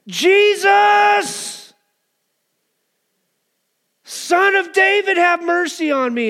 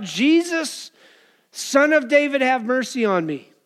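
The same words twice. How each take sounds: First: Full-out, high, drawn-out cry; louder desperate shout. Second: Raised, higher-pitched cry for mercy; mild acted shout. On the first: Acted. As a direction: bellow the plea high and long, as a beggar desperate to be heard. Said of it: "He shouted all the more". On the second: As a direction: call out to Jesus, pitch falling toward the end. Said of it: "he begins to shout".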